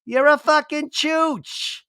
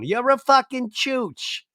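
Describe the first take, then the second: First: Put-on very high, slow kid voice; little girl's voice. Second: Put-on high, slow childish voice; little girl's voice. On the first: Repeating the kid's curse for a ringtone, very high and slow. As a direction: squeak it like a toddler swearing. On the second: Repeating the kid's curse for a ringtone, high and slow. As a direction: drawl it like a tiny kid cursing. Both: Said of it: "I want that as my ringtone".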